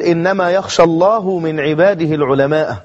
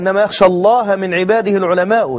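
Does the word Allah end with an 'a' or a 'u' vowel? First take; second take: u; a. First: Allah ends in 'u'; al-ulama ends in 'a'. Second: Allah ends in 'a'; al-ulama ends in 'u'. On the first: God fears the scholars. The speaker calls it wrong. "مثلا قرأ" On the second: Only the scholars truly fear God. The speaker calls it right. "والقراءة"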